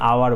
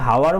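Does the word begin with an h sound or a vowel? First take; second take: vowel; h sound. First: The word begins with a vowel sound. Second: The word begins with an h sound. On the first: The speaker calls it right. "আমি আওয়ার বলছি।" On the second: The speaker calls it wrong. "আমি কি হাওয়ার বলছি না"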